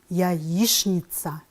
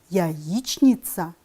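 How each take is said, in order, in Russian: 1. Произносится так, как обычно говорят. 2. Читается так, как написано. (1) "а произносим" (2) "Пишем"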